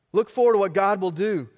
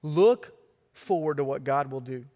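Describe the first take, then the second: First: Forceful repeat of the call; preached louder. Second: Said in the usual way. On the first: Real, not acted. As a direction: Look forward said loud and emphatic. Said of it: "repeated with force".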